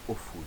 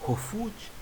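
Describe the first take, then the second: First: The word starts directly on the vowel. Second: The word starts with an audible h sound. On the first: The speaker calls it wrong. "mais je dis ofuj" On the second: The speaker calls it right. "je ne prononce plus correctement le mot hofuj"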